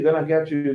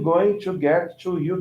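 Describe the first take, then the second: First: Going to is reduced to one short gonna. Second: Going to is said as two full words.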